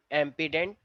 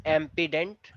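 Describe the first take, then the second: No difference in how they are said.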